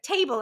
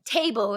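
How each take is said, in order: First: Lightly imitated British "Table"; British accent. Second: Said in the usual way. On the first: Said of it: "say words with a British accent". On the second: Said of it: "And then they say".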